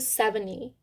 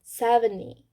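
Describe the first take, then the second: First: The t sound is dropped in fast speech. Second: The t sound is dropped in fast speech.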